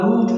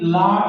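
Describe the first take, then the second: First: The vowel is a long rounded 'oo' sound. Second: The vowel is a long open 'aa' sound. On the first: "लूट भी नहीं पढ़ते" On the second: "लाट भी नहीं पढ़ते"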